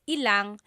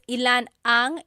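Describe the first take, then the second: First: The two words merge into one word, ilang. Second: Two separate words are said, ilan and ang. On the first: "it's usually put together and it's ilang" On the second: "when there's ilan ang"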